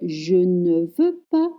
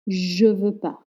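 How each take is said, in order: First: The word ne is fully pronounced. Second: The word ne is dropped entirely. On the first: The speaker calls it wrong. "Do not say je ne veux pas" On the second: The speaker calls it right.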